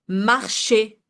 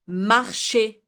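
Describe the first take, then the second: No difference in how they are said.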